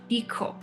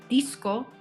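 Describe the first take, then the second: First: The s becomes a puff of air after k. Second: A clear s sound comes before the k.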